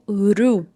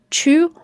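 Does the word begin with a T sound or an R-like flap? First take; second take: R-like flap; T sound. First: The word begins with a quick R-like flap. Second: The word begins with a clear T sound.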